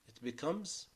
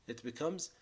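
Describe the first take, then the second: No difference in how they are said.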